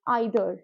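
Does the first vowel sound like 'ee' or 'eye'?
eye. The word begins with an 'eye' vowel sound. "अगर मैं इसको अमेरिकन एक्सेंट में बोलूँ"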